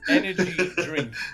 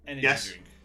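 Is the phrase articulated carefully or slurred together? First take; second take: careful; slurred. First: Each sound is pronounced clearly and distinctly. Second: The sounds blur together and run into each other. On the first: "I'll put some effort into it" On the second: "I'll say it naturally"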